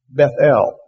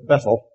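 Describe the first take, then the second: First: Both syllables are strongly stressed. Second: Only one syllable is strongly stressed. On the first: The speaker calls it right. "Both syllables should be highly accented" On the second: The speaker calls it wrong. "we would normally say it's Bethel"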